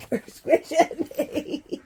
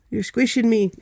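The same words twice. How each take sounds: First: Slow, breathless laughing words; laughing while pinned down. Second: Squashed under a heavy dog; pinned down, pushing words out; being squeezed hard. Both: Real, not acted.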